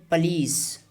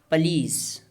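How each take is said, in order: Both takes have the same delivery.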